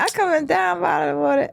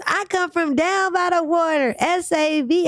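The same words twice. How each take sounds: First: Squeaky voice. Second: Put-on high, slow, squeaky kid rap. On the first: Retold or imitated. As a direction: rap it like a squeaky little kid. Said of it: "do that again". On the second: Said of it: "squeaky voice".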